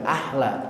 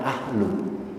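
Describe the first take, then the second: First: The word ends with an a vowel. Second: The word ends with a u vowel. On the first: The speaker calls it right. "harus dibaca ahla" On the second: The speaker calls it wrong. "jangan ahlu"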